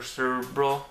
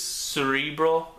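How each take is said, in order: First: Cerebro with a short, reduced middle syllable; Cerebro as SER-uh-bro. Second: Cerebro with a long "ree" in the middle; Cerebro, middle syllable drawn out as "ree"; Cerebro as se-REE-bro. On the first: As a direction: say Cerebro without the long "ree", like SER-bro. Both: Shown as a demonstration. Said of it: "I always had trouble pronouncing that word".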